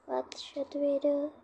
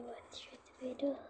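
First: Said in the usual way. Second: Whispering. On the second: Real, not acted. Whispered then said aloud.

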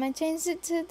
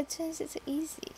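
First: Said in the usual way. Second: Whispered. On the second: Real, not acted. Correcting self, trailing off.

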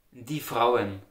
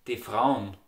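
First: "die Frauen" in two full syllables; standard German. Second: "Die Frauen" squeezed to "de Fraun"; short die, merged ending in "Frauen"; Austrian dialect. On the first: Teacher giving the plural, standard "die Frauen". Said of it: "In the standard German". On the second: Teacher modelling dialect plural, "Die Frauen" as de Fraun. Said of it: "In the Austrian dialect". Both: Shown as a demonstration.

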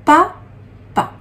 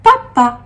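First: "papa" split into two syllables with a long pause between; "papa" in two separate, higher-pitched syllables. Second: Said in the usual way. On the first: Shown as a demonstration. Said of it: "la deuxième syllabe". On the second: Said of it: "Il y a ici écrit le mot".

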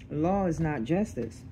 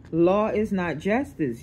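First: Said in the usual way. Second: Slow, weighted "Law is not justice"; emphatic. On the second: Real, not acted. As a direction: state "Law is not justice" slowly, leaning on "Law". Emphatic verdict, later restated plainly.

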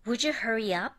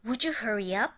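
First: Would you said as wouldju again; linked ju. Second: Would you said as wouldju; linked ju. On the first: Teacher repeating would you linked as wouldju. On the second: Teacher modelling would you linked as wouldju. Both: Shown as a demonstration. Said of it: "dの後にゆで始まる音".

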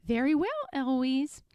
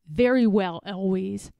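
First: Higher echo with rising end; mimicking the tutor. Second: Tutor's stiff, firm resignation; firm start, falling onto the name; Philip. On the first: Eloise standing up like her tutor, cheeky echo. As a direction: parrot it back cheekily. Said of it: "stand up and say". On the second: Tutor standing up to Eloise, stern and firm. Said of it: "stands up and says". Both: A narrator's reading.

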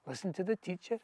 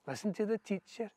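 Both takes have the same delivery.

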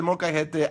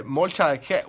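First: "molcajete" with a Spanish j like h; correct Spanish pronunciation. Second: "molcha", cut short of molcajete; mock mispronunciation. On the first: Shown as a demonstration. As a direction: say all four syllables of "molcajete" fluently. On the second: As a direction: stumble slowly into an anglicised "molcha". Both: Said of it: "I know it says molcajete".

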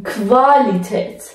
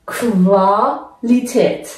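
First: کوالیتت said slowly with a kv start. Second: کوالیتت very slowly, kv and long aa; slow kv demo. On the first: German teacher spelling out the kv sound. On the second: Teacher repeating Qualität for learners. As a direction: sound out کوالیتت syllable by syllable. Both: Shown as a demonstration.

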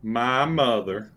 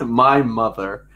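First: Echoes it slowly; slow teasing echo. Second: Slow, drawn-out deadpan; deadpan answer, slowed. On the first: Retold or imitated. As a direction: mimic the drawn-out reply. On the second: Real, not acted. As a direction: let it hang slowly.

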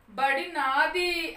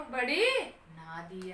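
First: Put-on drawn-out, higher, loud child's shout; acted stubborn shout, stretched out; loud cry. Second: Slow, drawn-out protest, falling away; acted drawn-out claim, less forceful; insistent child. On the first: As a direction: yell it slowly as an insistent boy. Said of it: "అని గట్టిగా కేకేశాడు". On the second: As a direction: stretch the words out as a stubborn boy. Boy repeats his drawn-out claim.

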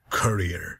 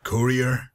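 First: "courier" with CUR as first syllable; alternative pronunciation. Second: "courier" with COOR as first syllable; first pronunciation. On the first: Asking which pronunciation, "courier" said CUR-ee-er. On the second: Asking which pronunciation, "courier" said COOR-ee-er. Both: Shown as a demonstration. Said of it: "Do you pronounce it courier or courier".

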